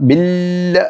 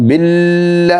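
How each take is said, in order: No difference in how they are said.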